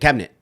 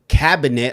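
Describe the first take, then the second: First: The middle vowel is dropped. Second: The middle vowel is fully pronounced. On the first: "I'm taking out the I and I'm going straight to cabinet" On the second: "I'm not saying cabinet"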